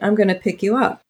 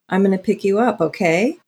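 First: It ends falling, like a firm statement. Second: It ends rising, like a question.

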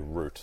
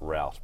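First: It is said the Australian way. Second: It is said the American way.

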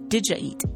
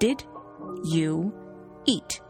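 First: The words are reduced and run together. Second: Each word is said fully and separately. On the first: The speaker calls it right. "But that's not how people speak" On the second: The speaker calls it wrong. "So literally, it is, did you eat?"

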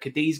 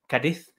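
First: The name does not resemble a fast 'Cardiff'. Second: The name sounds like 'Cardiff' said quickly. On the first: "He was at the Cadiz game" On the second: "as he has already told me, ... It just sounds like I'm saying Cardiff very fast"

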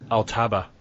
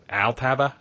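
First: It is said in the speaker's own accent. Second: It is said in a put-on American accent.

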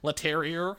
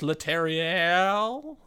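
First: The name is said with an American accent. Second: The name is said with a French accent. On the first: "if you're a born American" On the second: "I'm trying to get the nice French pronunciation"

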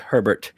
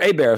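First: The surname is said the usual English way. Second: The surname is said the Louisiana way.

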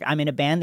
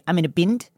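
First: It is said in a plain American accent. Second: It is said in an imitated Australian accent.

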